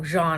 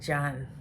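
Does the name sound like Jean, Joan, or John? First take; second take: Jean; John. First: The name is said with an 'ee' vowel. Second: The name is said with a short 'o' vowel. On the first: "or, you know, Jean or something" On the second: "I'm pretty sure it's like John"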